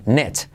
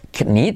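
First: The k is silent and the vowel is 'e'. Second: The k is sounded and the vowel is 'i'. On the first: The speaker calls it right. "La I como una E y la K no se dice" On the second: The speaker calls it wrong. "no se dice knit"

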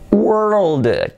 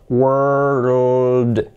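First: The word is said at normal speed. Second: The word is said slowly and drawn out.

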